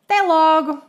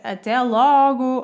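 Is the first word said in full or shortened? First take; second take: shortened; full. First: The first vowel of the first word is dropped. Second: The first word is said in full. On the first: It is an informal goodbye among friends or family. "podemos reduzir as expressões" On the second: It is a neutral, non-colloquial goodbye. "sem ser com palavras coloquiais"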